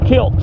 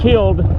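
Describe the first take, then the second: First: The word ends with a t sound. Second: The word ends with a d sound. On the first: "kilt, K I L T" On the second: "Not killed"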